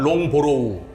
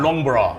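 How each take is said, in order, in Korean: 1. 한국식으로, 음절을 모두 살려서 long-bo-ro-u라고 발음합니다. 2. 영어식으로, 끝音을 줄여서 long-bruh라고 발음합니다. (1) "한국말로 하면" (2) "영어로 하면"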